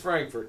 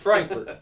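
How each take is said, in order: First: It is said with an American pronunciation. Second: It is said with a German pronunciation. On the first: It is the name as the listeners back home say it. "to all our, our friends out there" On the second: It is the name as locals say it. "say all the names proper"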